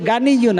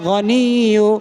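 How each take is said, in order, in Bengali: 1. শব্দটি একটি plain hard g দিয়ে শুরু হয়। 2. শব্দটি একটি throaty gh শব্দ দিয়ে শুরু হয়। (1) "গানিয়ু না, ইয়া গইন জবর গা হয় না" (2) "গইন জবর গ হয়"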